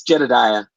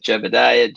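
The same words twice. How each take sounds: First: Jedediah, with a d in the second syllable; correct pronunciation. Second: Jebediah, with a b in the second syllable; common mispronunciation. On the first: Shown as a demonstration. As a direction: demonstrate the name as Jedediah, D not B. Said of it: "It's Jedediah". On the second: Retold or imitated. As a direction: say the misheard version, Jebediah with a B. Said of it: "everybody pronounces it a little differently".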